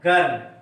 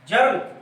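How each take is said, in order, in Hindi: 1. यह शब्द hard G की आवाज़ से शुरू होता है। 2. यह शब्द J की आवाज़ से शुरू होता है। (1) "इसको हम ज नहीं पढ़ते" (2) "जी का प्रोनाउंसिएशन जा होता है"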